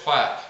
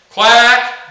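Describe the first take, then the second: First: Low pitch quack. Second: Loud, drawn-out quack pitched high. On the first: Coach showing the bottom of a cadence, low pitched. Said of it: "down to a low pitch". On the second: Coach showing the top of a cadence, high pitched. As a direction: sing out a long high quack. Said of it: "going from a high pitch". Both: Shown as a demonstration.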